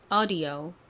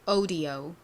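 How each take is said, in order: First: It is said in an American accent. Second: It is said in a British accent. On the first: "미국식으로는" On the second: "영국식으로는"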